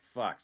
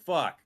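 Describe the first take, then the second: First: Understated, defeated swear; resigned curse. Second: Higher, louder exasperated swear; exasperated curse. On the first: Streamer reacting to the first exercise demand, resigned. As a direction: curse under the burden of one set. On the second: Streamer told to do another set, exasperated. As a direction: curse harder at yet another demand. Same reaction when asked for another. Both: Retold or imitated.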